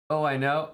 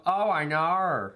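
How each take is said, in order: First: Said in the usual way. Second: Slow, higher "know" said like "knor", an R tacked on the end; mocking the R's, drag out "know" so it ends in "knor". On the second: Shown as a demonstration. Making fun of how some say "know", with an R added. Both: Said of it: "That's just me making fun of the R's".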